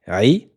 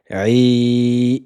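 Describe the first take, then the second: First: The vowel is held for one beat. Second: The vowel is held for four beats. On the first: "un temps" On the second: "c'est quatre temps"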